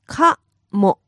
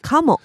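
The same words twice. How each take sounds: First: It is said slowly, syllable by syllable. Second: It is said fast at normal speed.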